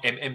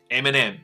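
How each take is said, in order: First: The two letters run together with no 'and'. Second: An 'and' is said between the two letters. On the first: The speaker calls it wrong. "不要念成MM" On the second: The speaker calls it right. "它是正确的念法"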